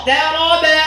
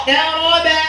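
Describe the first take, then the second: The two takes are said the same way.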